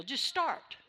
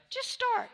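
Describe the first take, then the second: First: Said in the usual way. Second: Urging. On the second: Shown as a demonstration.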